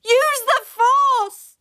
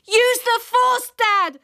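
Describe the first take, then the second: First: Higher, very slow drawn-out yell; child yelling again, slower; long yell. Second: High, slow excited yell; child yelling advice to dad. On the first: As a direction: stretch every word like a battle cry. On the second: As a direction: urge him on at full voice. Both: Acted. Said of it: "I yelled".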